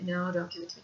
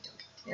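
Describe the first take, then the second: First: Quiet frightened plea; soft plea. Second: Breathless whispered plea. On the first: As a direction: beg softly, still voiced. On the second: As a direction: whisper it, begging. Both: Retold or imitated. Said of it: "But I would scream".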